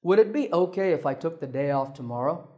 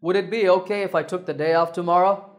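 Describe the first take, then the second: First: Polite request easing down toward tomorrow; falling tone. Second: Quick, climbing up through tomorrow, sounding rude; rising tone. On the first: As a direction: ask politely, without pushing up tomorrow. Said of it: "when I use the correct falling". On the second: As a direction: push the pitch up at tomorrow, disrespectfully. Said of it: "Let me say it with a rising tone". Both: Shown as a demonstration.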